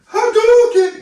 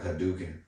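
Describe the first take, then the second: First: It is screamed with great effort like Ryu. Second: It is said calmly and easily, without screaming.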